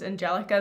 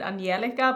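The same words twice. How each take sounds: First: The name is pronounced the English way. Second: The name is pronounced the Swedish way. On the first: "in English it's Angelica" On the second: "they would pronounce it Angelica"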